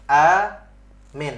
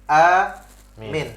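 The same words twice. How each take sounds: The two takes are said the same way.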